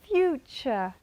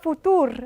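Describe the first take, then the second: First: The middle consonant is a ch sound. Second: The middle consonant is a plain t sound. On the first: The speaker calls it right. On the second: The speaker calls it wrong. "Not futur"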